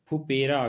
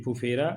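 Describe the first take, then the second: First: फुपेरा said with a plain p in the middle, phupera; फुपेरा with an unaspirated p; the common wrong फुपेरा; wrong pronunciation. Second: फुफेरा with an aspirated ph in the middle, phuphera; फुफेरा with the breathy ph in both places; the correct फुफेरा; correct pronunciation. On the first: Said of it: "गलत है". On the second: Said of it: "सही है". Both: Shown as a demonstration.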